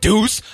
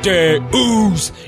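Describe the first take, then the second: First: The word is pronounced as deuce. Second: The word is pronounced as Deus. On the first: The speaker calls it wrong. "It's not deuce" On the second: The speaker calls it right. "The correct pronunciation is Deus"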